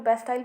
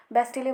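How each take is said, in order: First: बेस्टाइल ending like English "tile"; बेस्टाइल with an "-ail" ending; English-style pronunciation. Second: बेस्टिले ending in a sounded "lay"; बेस्टिले with short i and final e vowel; alternative pronunciation. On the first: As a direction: say बेस्टाइल as "best-aa-il", long i glide. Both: Shown as a demonstration. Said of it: "अलग-अलग तरीके से बोलते हैं".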